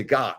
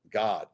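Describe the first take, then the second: First: Said in the usual way. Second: God with a rounded English O, like gawd. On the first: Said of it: "So Americans say God". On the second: Shown as a demonstration. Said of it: "not God".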